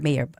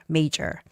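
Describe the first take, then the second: First: The middle consonant is a y sound. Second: The middle consonant is a j sound. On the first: The speaker calls it wrong. "you shouldn't say mayor" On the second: The speaker calls it right. "So say major"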